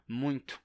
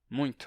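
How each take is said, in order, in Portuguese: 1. O t tem um leve som de chiado. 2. O t tem um leve som de chiado.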